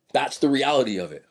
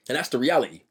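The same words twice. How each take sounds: First: Said in the usual way. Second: Lightly put-on British accent. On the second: Man sums up his point to viewers, mock British accent. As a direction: toss it off with a hint of British accent. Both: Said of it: "I said that with a British accent".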